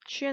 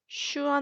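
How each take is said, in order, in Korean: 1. 'shoo-en'처럼 들리며, 'oo'는 뒤쪽 소리입니다. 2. 'shoo-ahn'처럼 들리며, 모음은 'a'입니다. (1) "슈엔 아니고요" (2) "슈안 아닙니다"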